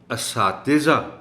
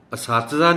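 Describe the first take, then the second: First: اساتذہ slow, a-saa-ti-za; correct pronunciation. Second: اساتذہ said asat-za, no i under ت; wrong pronunciation. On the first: Shown as a demonstration. Teacher models اساتذہ slowly. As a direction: stretch اساتذہ. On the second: Retold or imitated. Teacher shows the wrong اساتذہ. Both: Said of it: "اساتذہ نہیں".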